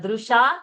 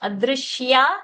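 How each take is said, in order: First: No 'y' sound follows the 'sh'. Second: A clear 'y' sound follows the 'sh'. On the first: The speaker calls it wrong. "not adrusha" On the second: The speaker calls it right. "that ya sound has to be heard"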